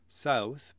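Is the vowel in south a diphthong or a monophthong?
diphthong. The vowel glides as a full diphthong.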